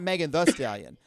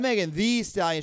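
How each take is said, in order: First: The middle word is said with a short vowel. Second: The middle word is said with a long 'ee'. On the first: This is the name as others usually say it. The speaker calls it wrong. "I'm not" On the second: This is the name as she spells it. The speaker calls it right. "She adds an extra e, so you got to pronounce it like that"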